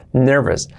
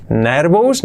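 First: "nervous" as NER-ves, falling; correct pronunciation. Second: "nervous" as rising NER-bous; wrong pronunciation. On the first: Teacher confirms the right version: "nervous" as NER-ves. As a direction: finish "nervous" on a weak "-es". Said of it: "Sí". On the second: Teacher rejects the learner's version: "nervous" as NER-bous, rising. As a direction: query "nervous" with a b and full "ous". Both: Shown as a demonstration.

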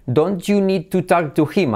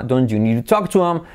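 First: "don't you need to talk to him" slow, H sounded; full form. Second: "talk to him" merged as talk-tu-am; linked form. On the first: Teacher contrasts two languages, full careful form. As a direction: slowly sound each word up to HIM. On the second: Teacher contrasts two languages, linked form. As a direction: run DON'T YOU NEED TO TALK TO HIM together, no H. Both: Shown as a demonstration. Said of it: "es como dos idiomas distintos".

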